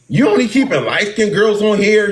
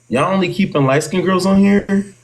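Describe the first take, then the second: First: It is said as a blunt, accusing statement. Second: It is said as a genuine, asking question. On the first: She is accusing them of favoritism. The speaker calls it wrong. "she ain't come off of it like" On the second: She is only asking. The speaker calls it right. "Like it was just like a question"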